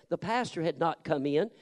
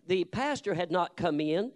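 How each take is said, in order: Both takes have the same delivery.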